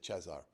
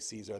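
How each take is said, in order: First: The name is said with a Romanian pronunciation. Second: The name is said with an English pronunciation. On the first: "they would say Cezar" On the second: "We would say Caesar"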